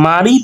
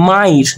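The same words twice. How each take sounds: First: Said in the usual way. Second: মাইর with i before the r; inserted short i. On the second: Shown as a demonstration. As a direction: glide ma-i into r in মাইর. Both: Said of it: "মাঝখানে কিন্তু রস্বইকার চলে এসেছে".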